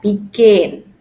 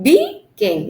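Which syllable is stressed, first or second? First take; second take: second; first. First: The stress is on the second syllable. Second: The stress is on the first syllable. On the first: The speaker calls it right. "but begin" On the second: The speaker calls it wrong. "Not begin, no"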